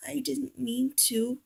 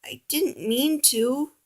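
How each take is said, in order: First: Soft, slow, tearful whisper. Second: Softer, slow, small voice; ashamed apology. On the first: Oliver whispers his apology, crying, soft and slow. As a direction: whisper it through tears. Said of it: "he whispered". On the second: Oliver apologizes to Piggy, soft and ashamed. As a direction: hang your head and apologize. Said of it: "Oliver hung his head". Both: A narrator's reading.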